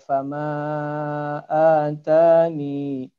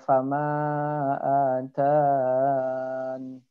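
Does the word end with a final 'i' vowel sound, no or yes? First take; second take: yes; no. First: The word ends with a final 'i' sound. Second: The word ends without a final 'i' sound.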